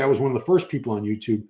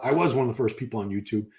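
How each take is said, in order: First: Said in the usual way. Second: Emphatic "was", conceding the point; stress on WAS. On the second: Real, not acted. Streamer qualifying his claim to early YouTube fame, stress on "was". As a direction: land on "was", then ease down through the rest. Reverses it after comparing with others.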